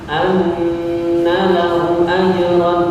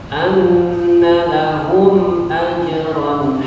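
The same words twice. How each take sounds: First: The m in lahum is skipped over quickly. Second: The m in lahum is held with light nasal hum. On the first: The speaker calls it wrong. "itu lompat namanya" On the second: The speaker calls it right. "Yang penting tidak ditambah"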